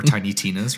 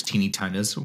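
First: "Tiny" said with an eye vowel, TY-nee Tina's. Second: Put-on "Teeny" said with a long ee vowel, TEE-nee Tina's. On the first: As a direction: say "Tiny Tina's" like the word small. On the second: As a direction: say "Teeny Tina's" with an ee sound, not "tiny". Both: Shown as a demonstration. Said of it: "or however it's supposed to be said".

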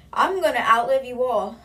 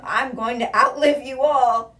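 First: Put-on higher, louder replay of the proud old woman; defiant old lady. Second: Put-on slow, higher, louder proud old woman's voice; defiant old lady. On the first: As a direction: repeat it with the same stubborn grandma swagger. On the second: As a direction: gloat like a stubborn grandma who'll bury them all. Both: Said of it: "she's a confident woman".

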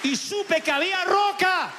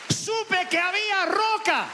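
First: High, slow proclamation of faith; soaring declaration. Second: Higher, slower ringing proclamation; soaring repeat. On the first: Preacher tells congregation he found rock, soaring high. Climax of testimony. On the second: Preacher repeats his victory to the church, high and slow. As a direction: stretch it out high, full of faith. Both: Real, not acted.

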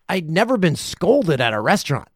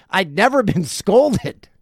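First: Said in the usual way. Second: Slow, laughing disbelief. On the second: Real, not acted. Teller repeating it to the audience, slowly laughing. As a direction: laugh through the word scolded.

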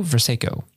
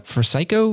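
First: "Versycho" as "ver-SAY-ko", falling; settled attempt. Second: "Versycho" higher, as "ver-SY-ko", rising; questioning attempt. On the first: Host settling a patron's surname, "Versycho" falling as ver-SAY-ko. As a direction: land "Versycho" with a "say" in the middle. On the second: Host retrying a patron's surname, "Versycho" rising with a k. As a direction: ask "Versycho" with a hard k. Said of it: "I completely butchered that". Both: Real, not acted.

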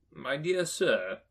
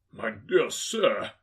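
First: Slow, drawn-out courteous greeting; a touch of Scrooge's eager courtesy; lightly voiced Scrooge. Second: Put-on slow, emphatic old gentleman voice; overwhelmed gentleman. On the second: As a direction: stretch each word in grateful amazement. Overwhelmed gentleman answers Scrooge. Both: A narrator's reading.

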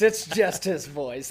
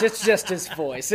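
First: "It's just his voice" said slower and weighted; slower emphatic repeat. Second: Said in the usual way. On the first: Shown as a demonstration.

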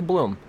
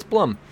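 First: "Blum" said as "bloom", with a long oo; "Blum" with an oo vowel; mistaken pronunciation. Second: "Blum" with a short uh, like "plum"; "Blum" said as "blum", not "bloom"; correct pronunciation. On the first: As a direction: show the slip, rhyming "Blum" with "room". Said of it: "I go straight to". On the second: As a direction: stress "Blum" with a short vowel, rhyming with "drum". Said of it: "I know it's". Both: Shown as a demonstration.

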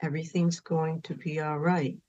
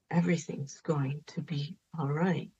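First: Put-on soft, soothing reassurance to a grieving child; gentle soothing repeat. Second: Fully whispered reassurance, very soft; hushed whisper comforting a child; whispered soothing. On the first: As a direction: murmur it like a mother comforting. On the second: Retold or imitated. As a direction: breathe it like a lullaby whisper. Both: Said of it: "said over and over again".

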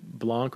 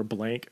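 First: "Blanc" with an open ah vowel; trying a pronunciation. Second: "Blank" with a flat English a; alternative pronunciation. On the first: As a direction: say "Blanc" French-style, rhyming with "honk". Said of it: "how I'm gonna pronounce her name". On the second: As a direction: say "Blank" to rhyme with "bank". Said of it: "Blanc or Blank". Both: Shown as a demonstration.

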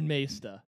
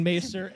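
First: Maesta with no final r; imitated mispronunciation. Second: Maester with a sounded final r; pronunciation contrast. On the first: Co-host settling who said what, Maesta ending in "ah". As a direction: end Maesta on an open "ah". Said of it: "and you said Maesta". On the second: Retold or imitated. Co-host settling who said what, Maester with the r sounded. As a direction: end Maester on a clear "er". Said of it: "I thought Jake was saying".

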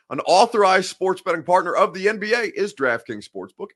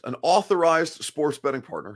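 First: Authorized pushed up high and loud in a bright ad read; authorized, punched, then a rising promo lilt; stress on authorized. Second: Said in the usual way. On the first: Shown as a demonstration. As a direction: sell it, land hard on authorized. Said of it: "have to get the language right for legal terms". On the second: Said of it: "have to get the language right".

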